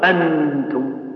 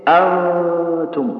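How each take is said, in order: First: The n is made with the tongue fully pressed. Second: The n is nasal with the tongue barely touching. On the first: The speaker calls it wrong. "ما تقول أنتم" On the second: The speaker calls it right. "تقول إيش؟ أنتم"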